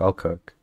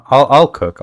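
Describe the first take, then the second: First: Quiet repeat. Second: Louder insistent offer; emphatic. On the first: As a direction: drop it to a mumble. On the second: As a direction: say it up and firm. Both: Real, not acted.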